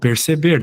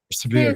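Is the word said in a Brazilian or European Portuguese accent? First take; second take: Brazilian; European. First: Every vowel is pronounced fully and clearly. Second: The vowels are reduced and run together. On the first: "eu falo perceber, dá para entender bem, né? As sílabas" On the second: "no português de Portugal, eles falam perceber ... tudo junto"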